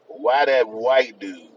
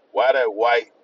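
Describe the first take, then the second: First: Why that white dude, drawn out and punched; slow deliberate restart with weight on Why; slower, louder emphatic retake. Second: Said in the usual way. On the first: Shown as a demonstration. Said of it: "I'm gonna say it again". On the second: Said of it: "did I say white? ... say it again".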